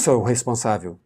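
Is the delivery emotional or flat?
flat. It is said flatly, without feeling. The speaker calls it wrong. "Não diz"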